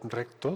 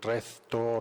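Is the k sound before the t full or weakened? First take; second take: full; weakened. First: The k before the t is fully pronounced. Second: The k before the t is weakened. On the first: "En vez de, por ejemplo" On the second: "la pronunciación debilitada de algunos grupos cultos, como K T"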